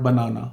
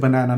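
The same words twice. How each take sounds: First: "banana" with a long "ah" in the middle; former pronunciation. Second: "banana" with the middle vowel of "cat"; adopted Canadian pronunciation. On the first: Showing the form dropped in Canada, "banana" as buh-NAH-nuh. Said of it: "not banana". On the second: Showing what the speaker will now say, "banana" as buh-NAN-uh. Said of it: "then I will say banana". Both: Shown as a demonstration.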